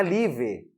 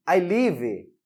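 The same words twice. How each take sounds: First: Live said with a trailing vowel, li-vee; wrong pronunciation. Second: Live clipped short, ending on a bare v; correct pronunciation. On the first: Teacher shows students the wrong way: live with an added vowel. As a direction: sound out live with an extra e at the end, the wrong way. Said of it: "Não é live". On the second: Teacher shows students the right way: live ending on v. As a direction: end live cleanly on the v sound. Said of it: "A pronúncia correta é live". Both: Shown as a demonstration.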